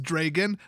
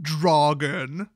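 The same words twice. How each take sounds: First: "Dragon" said the normal American way, slow and careful; correct pronunciation. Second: "Dragon" stretched out very slowly and louder, the wrong British-style way; wrong pronunciation. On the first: YouTuber showing viewers the right way to say it, carefully. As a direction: give "Dragon" its proper everyday American sounds. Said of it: "it's pronounced Dragon". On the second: YouTuber mocking the wrong pronunciation to viewers, slow and loud. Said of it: "not Dragon". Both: Shown as a demonstration.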